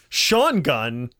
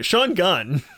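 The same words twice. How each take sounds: First: The first name gets strong contrastive stress. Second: The name is said neutrally, without contrastive stress.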